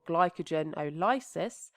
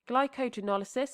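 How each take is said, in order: First: The word is split into glycogen plus lysis. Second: The word is said run together as one unit.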